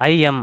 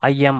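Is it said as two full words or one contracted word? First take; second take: two words; two words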